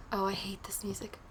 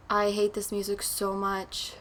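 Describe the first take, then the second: First: Breathy whisper of dread; hushed, uneasy whisper. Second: Said in the usual way. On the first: Real, not acted. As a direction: whisper it so the creepy music can't hear you. Creepy game music playing.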